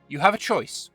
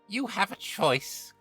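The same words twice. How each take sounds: First: It is said in the reader's natural voice. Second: It is said in a put-on Auntie Ethel voice.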